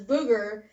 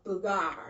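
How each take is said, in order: First: The name ends in an 'er' sound. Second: The name ends in an 'ar' sound. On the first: The speaker calls it wrong. "you didn't pronounce it as booger" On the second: The speaker calls it right. "It was called boogar"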